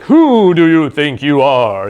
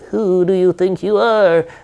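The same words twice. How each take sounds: First: It sounds powerful and commanding, like a wizard. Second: It sounds meek and timid, like a goblin.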